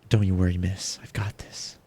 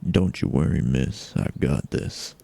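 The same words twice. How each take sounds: First: It is said in a light, unmanly voice. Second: It is said in a deep, gruff voice.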